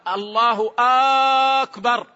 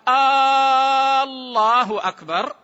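First: The opening vowel of akbar is drawn out. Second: The opening vowel of Allah is drawn out. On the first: "أو همزة أكبر" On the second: "إن مد همزة لفظ الجلالة همزة الله"

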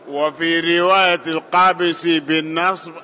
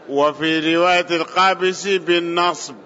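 Both takes have the same delivery.

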